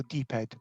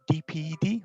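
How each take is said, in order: First: "D ped" said as D plus one syllable, ped; "D ped", rhyming the second part with bed; acronym as a word. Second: "D P E D" said letter by letter; spelled-out acronym. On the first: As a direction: say "D ped" with the last three letters run together as a word. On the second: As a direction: spell out "D P E D" as four separate letters. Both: Shown as a demonstration. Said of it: "how do we pronounce it".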